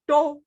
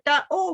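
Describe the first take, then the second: First: The sounds run together into one word. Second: The sounds are said apart, one by one. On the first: This is how people normally speak. "when you say it normally, we just go door" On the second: It helps with spelling. "you synthesize it and you say da oh"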